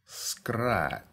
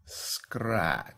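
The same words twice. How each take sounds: The two takes are said the same way.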